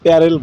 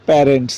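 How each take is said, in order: First: The word ends in a plain L sound. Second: The word ends in an NTS cluster. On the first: It is the local dialect form. The speaker calls it wrong. "আমাদের এলাকার ভাষায় প্যারেল বলে" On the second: It is the standard form. The speaker calls it right. "আসলে এটা সঠিক উচ্চারণ হবে প্যারেন্টস"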